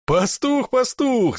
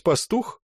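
First: High, loud horse-laugh repeat; neighing laugh. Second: Said in the usual way. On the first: Acted. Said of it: "заржал дубинщик сивым мерином". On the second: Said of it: "Ты, небось, пастух".

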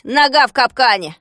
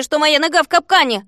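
First: Loud, mocking echo of the complaint; gruff, dismissive grumble; grumbling. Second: High, loud exasperated plea on «нога в капкане»; aggrieved, pitched-up complaint; indignant protest. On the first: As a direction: throw his words back with scorn. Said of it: "проворчал Фикс". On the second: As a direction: point out the obvious in outrage. Trapped hero protests to captor. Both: A narrator's reading.

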